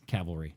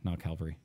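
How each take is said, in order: First: The V sound comes before the L sound. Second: The L sound comes before the V sound. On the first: The speaker calls it right. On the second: The speaker calls it wrong.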